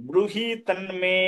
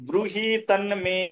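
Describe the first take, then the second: Both takes have the same delivery.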